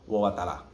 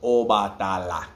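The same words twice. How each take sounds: First: Obatala run together quickly; quick casual Obatala; fast. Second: Obatala drawn out slow; slow careful Obatala; slowly. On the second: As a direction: say Obatala slowly, each syllable apart. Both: Shown as a demonstration.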